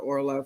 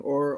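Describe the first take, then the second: First: The name is said with an L sound. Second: The name is said without an L sound. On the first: The speaker calls it right. "Forgive me for mispronouncing your name" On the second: The speaker calls it wrong. "I'm saying Aura"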